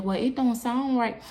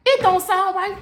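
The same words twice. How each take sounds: First: Slow, slightly raised, sceptical officer; doubtful officer. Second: High, indignant mock repeat; incredulous echo. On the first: Retold or imitated. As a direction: lightly voice an unconvinced officer, drawn out. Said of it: "the officer was like". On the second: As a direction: throw the words back in high-pitched disbelief. Throwing officer's words back, indignant.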